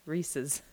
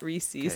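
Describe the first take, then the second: First: The ending rhymes with the word 'pieces'. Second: The ending does not rhyme with 'pieces'. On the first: The speaker calls it right. "Like pieces" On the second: The speaker calls it wrong. "Not Reese's"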